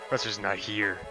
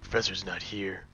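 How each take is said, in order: First: It is said in his normal voice. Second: It is said in a Shadow the Hedgehog voice.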